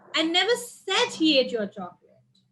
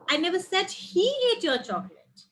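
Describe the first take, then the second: First: The stress falls on the word said. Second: The stress falls on the word he. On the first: It was only thought, not said. "I only thought maybe" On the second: Someone else ate it. "Someone else ate it"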